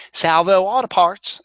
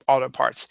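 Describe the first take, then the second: First: Put-on Baltimore accent. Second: Said in the usual way. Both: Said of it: "as Coach Buzz would call it".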